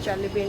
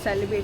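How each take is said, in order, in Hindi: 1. यह नाम ch ध्वनि से शुरू होता है। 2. यह नाम s ध्वनि से शुरू होता है। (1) "it is Chalibi in Turkish" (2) "it is not Celebi"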